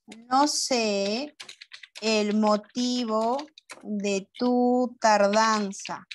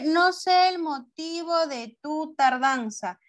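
First: Very slow, phrase by phrase with pauses; slow dictation. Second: Higher, slow but joined-up reading; reading aloud to class. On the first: Teacher writes an example sentence, slow broken dictation. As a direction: dictate in pieces at writing speed. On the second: Teacher reads the example to pupils, higher joined-up reading. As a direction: read the whole sentence out in one go. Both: Shown as a demonstration.

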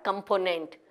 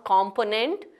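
First: Component starting with a weak "kum"; correct pronunciation. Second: Component starting "kom", with an open o; wrong pronunciation. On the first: Teacher correcting the mistake, correctly pronounced. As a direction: say component as "kuhm-PO-nent". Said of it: "but component". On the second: Teacher showing the mistake, mispronounced. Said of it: "not component". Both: Shown as a demonstration.

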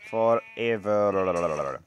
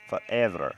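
First: FOREVER stretched very slowly with a rolling, wobbling tail; drawn-out ending. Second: Said in the usual way. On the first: Pretend. Player pledging friendship to his cow, drawn-out "Forever". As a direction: drag out the end of "Forever".

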